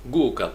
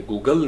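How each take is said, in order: First: Google as GOO-gul, quick fall; strong GOO, light ending on Google; stress on first syllable. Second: Google wrongly as goo-GAL; strong final syllable on Google; stress on second syllable. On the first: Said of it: "ये जो आपका शुरू में आएगा". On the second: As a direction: put the weight on GAL in Google. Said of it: "यानी Google नहीं है". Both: Shown as a demonstration.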